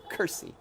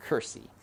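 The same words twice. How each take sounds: First: Curtsy said as kersey, no t; Mig's curtsy. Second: Curtsy said as kersey, dropping the t; curtsy spoken like Mig, kersey; Mig's curtsy. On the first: Teacher showing Mig's curtsy, said as kersey. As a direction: say Curtsy the way Mig does, kersey. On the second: Teacher repeating Mig's curtsy as kersey. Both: Shown as a demonstration. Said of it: "Mig says it".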